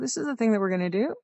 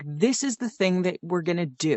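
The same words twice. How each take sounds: First: The pitch rises at the end of the sentence. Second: The pitch falls at the end of the sentence. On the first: The speaker sounds unsure. The speaker calls it wrong. "sounds like you're really unsure" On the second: It is a confident statement. The speaker calls it right. "if you end down, that makes it a statement"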